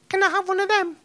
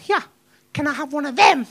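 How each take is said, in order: First: It is asked in an innocent, sweet tone. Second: It is asked in an irritated, impatient tone.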